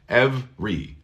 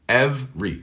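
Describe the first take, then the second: First: The word is said with two syllables. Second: The word is said with two syllables.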